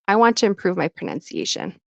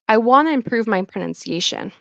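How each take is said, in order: First: The words 'want to' are said in full. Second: The words 'want to' blend into 'wanna'.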